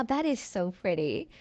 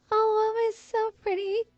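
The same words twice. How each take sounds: First: Said in the usual way. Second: Much higher, gushing over the room; excited gush. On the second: Real, not acted. Gushing to viewers over her pretty Sims build, excited. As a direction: squeal it out with delight. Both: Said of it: "I'm getting really excited".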